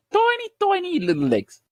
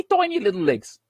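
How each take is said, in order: First: High, squeaky mock on "Tiny, tiny little legs". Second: Said in the usual way. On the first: Mocking Wilder's small legs to the podcast host in a high squeak. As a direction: squeak it like something tiny and silly.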